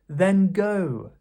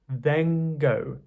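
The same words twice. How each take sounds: First: The n is made at the front of the mouth. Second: The n is made at the back of the mouth.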